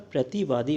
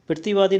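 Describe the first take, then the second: First: प्रतिवादी with a clean "pra"; corrected form. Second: प्रतिवादी as "pirtivaadi"; louder, higher "pirti" for प्रतिवादी; incorrect form. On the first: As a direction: say प्रतिवादी as "prati-vaadi". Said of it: "प्रतिवादी होता है". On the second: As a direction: say प्रतिवादी with the r after the first vowel. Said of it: "प्रतिवादी नहीं होता". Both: Shown as a demonstration.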